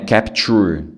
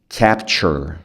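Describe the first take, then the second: First: The last syllable lacks the 'ch' sound. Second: The last syllable has a 'ch' sound. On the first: The speaker calls it wrong. "Não é capture" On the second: The speaker calls it right. "é chur, é um som de chur mesmo"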